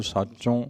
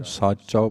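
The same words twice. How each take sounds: First: ਸਾਚੋਂ ending in a nasal o; wrong pronunciation. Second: ਸਾਚੋ ending in a plain o; no nasal sound on the end of ਸਾਚੋ; correct pronunciation. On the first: Teacher showing the wrong nasal reading of ਸਾਚੋ. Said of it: "ਪਾਠ ਨਹੀਂ ਕਰਾਂਗੇ". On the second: Teacher showing the right reading of ਸਾਚੋ. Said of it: "ਸਾਚੋ ਪਾਠ ਕਰਾਂਗੇ". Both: Shown as a demonstration.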